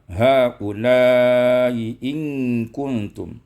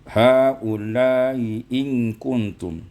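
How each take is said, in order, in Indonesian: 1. Hanya prolongasi vokal pertama yang panjangnya sedang. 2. Kedua prolongasi vokal dibaca pendek. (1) "qasar munfasil, kemudian uh, tawassut muttasil" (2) "mad munfasil dan muttasil dibaca dengan qasar"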